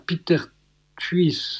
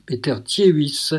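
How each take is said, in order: First: "Thuis" as one short syllable, a slip; "Peter Thuis", name clipped short; misread name. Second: "Thiehuis" said as tjeis, the fix; "Peter Thiehuis", careful corrected take; corrected name. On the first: (nom écorché, "Thuis" en une syllabe) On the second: (nom corrigé, "Thiehuis" prononcé tjeis) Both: Real, not acted. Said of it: "euh, pardon".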